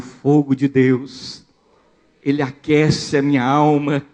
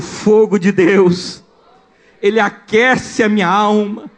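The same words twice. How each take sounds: First: It is said at normal loudness. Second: It is said louder.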